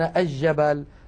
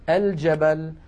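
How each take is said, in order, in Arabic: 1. اللام مُدغمة في جيم مشددة. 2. اللام مُظهرة وتُنطق بوضوح قبل الجيم. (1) "ويقولون الجبل ... هذا لا يصح" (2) "لكن الفصحى أن نقول الجبل"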